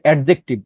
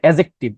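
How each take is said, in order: First: A d sound is heard before the j. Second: No d sound is heard before the j. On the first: The speaker calls it wrong. "অনেকে বলে যে অ্যাডজেক্টিভ, it's wrong." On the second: The speaker calls it right. "এটার উচ্চারণ হচ্ছে অ্যাজেক্টিভ"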